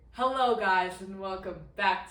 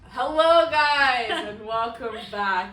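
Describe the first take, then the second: First: The greeting is calmer and lower in energy. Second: The greeting is loud and highly energetic. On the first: The speaker calls it right. "Let's bring it down" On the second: The speaker calls it wrong. "that was a little too much energy"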